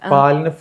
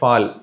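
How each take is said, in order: First: The word begins with a plain P sound. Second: The word begins with an F sound. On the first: This is the standard Malayalam form. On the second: This is how islanders say it in their dialect.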